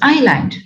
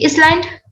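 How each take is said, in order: First: No s sound is heard before the l. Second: An s sound is heard before the l. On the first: The speaker calls it right. "it is island" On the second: The speaker calls it wrong. "do we say Island? No"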